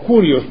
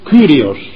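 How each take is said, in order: First: The first vowel is a plain u sound. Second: The first vowel is a rounded French-like u. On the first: "o Curios" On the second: "que podría o debería pronunciarse Ky, como los franceses"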